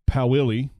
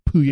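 First: The name is said with an American pronunciation. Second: The name is said with a French pronunciation. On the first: "For everybody in America, it's" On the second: "but if you've ever taken French, it's"

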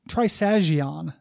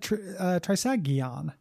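First: The g is a soft j-like sound. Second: The g is a hard g sound. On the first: "would be the soft sag" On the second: "I think you said it with a hard G"

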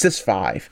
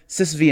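First: The final part is said as the number five. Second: The final part is said as the letter vee. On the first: The speaker calls it right. "it's Sys5" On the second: The speaker calls it wrong. "I know I call it SysV init"

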